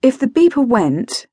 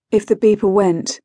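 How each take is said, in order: First: "If the beeper went" pitched high, then falling; emphatic thought. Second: Said in the usual way. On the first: A narrator's reading. Thought repeated, first take.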